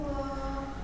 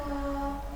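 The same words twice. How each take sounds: The two takes are said the same way.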